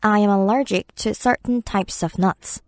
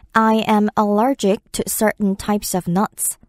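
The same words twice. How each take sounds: First: Certain stressed, slow steady read; slow example, certain leaned on. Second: Slow, careful English example; slow demo read; slow model sentence. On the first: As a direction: lean on certain. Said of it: "네". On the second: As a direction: read it slowly and clearly. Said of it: "For example". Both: Shown as a demonstration.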